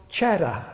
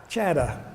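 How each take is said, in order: Both takes have the same delivery.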